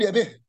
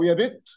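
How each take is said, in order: First: The final t sound is dropped. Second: The final t sound is pronounced.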